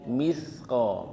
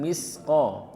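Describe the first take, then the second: First: The middle consonant is a th with tongue out. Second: The middle consonant is a plain hissing s. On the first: The speaker calls it right. "tapi misqa pakai sa ya jadi lidahnya sedikit dikeluarkan" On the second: The speaker calls it wrong. "bukan misqa"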